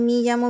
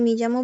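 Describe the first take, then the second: The two takes are said the same way.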